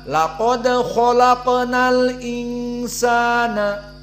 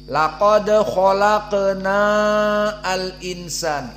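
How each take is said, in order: First: The 'na' vowel is short and linked. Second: The 'na' vowel is drawn out long. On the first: The speaker calls it right. "jika disambung dengan al-insan harus pendek" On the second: The speaker calls it wrong. "Jadi salah kalau dipanjangkan. Coba kita baca laqad khalaqna al-insan, itu salah"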